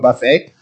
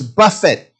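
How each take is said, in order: First: The word ends like 'fay', stress on second syllable. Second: The word ends like 'fit', stress on first syllable. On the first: An all-you-can-eat meal. The speaker calls it wrong. "Satan don't want to take you to a buffet" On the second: To strike or punch someone. The speaker calls it right. "It's buffet"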